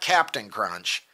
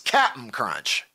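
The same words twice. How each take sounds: First: The first word is said as full 'Captain'. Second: The first word is clipped to 'Cap'n'. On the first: The speaker calls it wrong. "It's not" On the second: The speaker calls it right. "it's ... Look at the box"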